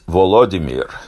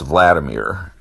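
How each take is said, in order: First: The name is said in the Ukrainian way. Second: The name is said in the American English way. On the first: "in Ukrainian, it's Volodymyr" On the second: "in American English, that's Vladimir"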